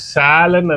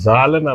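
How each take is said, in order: First: The word begins with an s sound. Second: The word begins with a z sound. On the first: The speaker calls it right. "సాలన్ అన్నాను" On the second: The speaker calls it wrong. "జాలన్ అల్లా"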